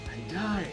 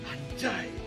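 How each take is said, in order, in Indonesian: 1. Diucapkan dengan rasa kagum. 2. Diucapkan dengan rasa kecewa dan frustrasi. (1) "itu juga adalah kekaguman" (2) "sedang marah akibat kehilangan, ditinggal mantan"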